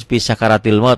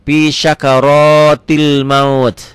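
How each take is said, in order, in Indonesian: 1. Bunyi r dalam sakaratil itu tipis, dengan vokal yang tipis. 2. Bunyi r dalam sakaratil itu tebal, dengan vokal yang tebal. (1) "Kadang-kadang kita, saya juga" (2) "padahal pi syakarotil, ro"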